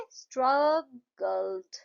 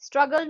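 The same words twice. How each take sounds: First: स्ट्रगल्ड very slow, split स्ट्रग, गल्ड; syllable by syllable. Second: Said in the usual way. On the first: Shown as a demonstration. Teacher shows how स्ट्रगल्ड gets two claps, syllable by syllable. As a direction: pause between the two beats of स्ट्रगल्ड. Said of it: "कैसे?". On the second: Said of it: "स्ट्रगल में कितनी बार करोगे".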